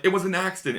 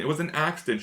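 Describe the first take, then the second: First: Higher, a hint of tearful pleading; tearful plea. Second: A quieter, fading echo of the plea; softer tearful repeat. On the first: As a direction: lightly imitate her breaking down. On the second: Retold or imitated. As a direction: let the plea fall away. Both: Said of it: "breaks down to tears being like".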